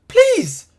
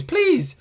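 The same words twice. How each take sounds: First: Much higher, louder desperate plea; louder begging. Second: High, drawn-out plea; begging. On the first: Fan begging his club even harder, high loud desperate plea. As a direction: push the plea up to near a cry. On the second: Fan begging his club to win, high plea. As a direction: beg the team, half desperate. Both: Real, not acted.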